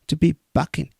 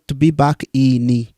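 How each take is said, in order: First: Back and in run together as one word. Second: Back and in are said as separate words. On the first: The speaker calls it right. "the way he connected here" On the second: The speaker calls it wrong. "not to be back in"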